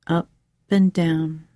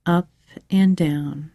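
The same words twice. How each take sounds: The two takes are said the same way.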